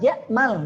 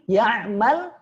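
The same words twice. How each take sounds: First: The middle consonant is a plain glottal stop. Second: The middle consonant is a deep throaty ain. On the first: Whoever hopes or daydreams. The speaker calls it wrong. "Tapi menggunakan hamzah, hati-hati" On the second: Whoever does a deed. The speaker calls it right. "ketika menggunakan ain ya'mal"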